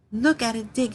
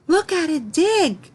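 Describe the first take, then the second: First: Said in the usual way. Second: Much higher, louder, slow excited cry; excited exclamation. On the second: Shown as a demonstration. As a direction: call out in delight at the digging dog. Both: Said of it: "we say this with excitement".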